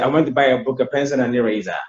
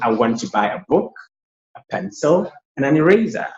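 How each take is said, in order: First: The items run together without clear pauses. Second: The items are separated by clear pauses.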